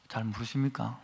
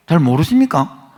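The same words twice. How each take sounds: First: Quiet, falling rhetorical question to the pews; soft question. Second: Loud, pressing challenge to the pews; loud rhetorical question. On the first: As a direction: ask it softly, almost to yourself. Preacher asks congregation rhetorically. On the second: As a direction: call it out to the congregation. Preacher challenges congregation at climax. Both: Real, not acted.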